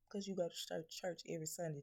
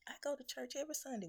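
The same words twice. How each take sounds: First: Said in the usual way. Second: High and fast, smug churchgoer voice; mock piety. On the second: Mocking viewers' excuse, "go to church every Sunday" high and fast. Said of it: "But you".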